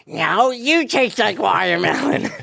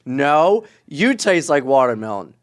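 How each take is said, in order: First: It is said in a put-on voice. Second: It is said in a normal voice.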